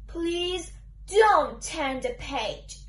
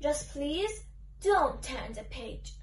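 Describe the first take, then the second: First: Slow, spaced-out request, each word distinct; very clearly. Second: Said in the usual way. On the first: Acted. Book character repeating the plea to the reader, very clearly. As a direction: say it slowly and very clearly, pitched low. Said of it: "I'll say it once more, very clearly".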